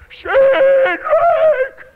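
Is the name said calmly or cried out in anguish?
anguish. The name is cried out in anguish.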